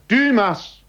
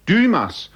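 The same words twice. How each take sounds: First: Very high, loud cry of a name; desperate shout. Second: High desperate call into the fog. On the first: Alone at the bay, shouting for Dymas, desperate. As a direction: call out as if nobody will answer. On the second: Lost man calling for his companion, loud and high. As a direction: shout the name far out. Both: A narrator's reading. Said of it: "rief er wieder".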